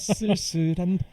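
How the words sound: The vowel is pronounced as a careful 'eu'. The singer deliberately pronounces it precisely. "[name] 쓸쓸한. 의도적으로 약간 발음을"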